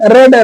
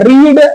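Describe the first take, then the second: First: The vowel is short, like 'red'. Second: The vowel is long, like 'reed'. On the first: It is the past form of the verb. "सेकंड और third form spelling same रहती है, उसको पढ़ा अलग जाता है" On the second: It is the base form of the verb. "रीड माने होता है पढ़ना"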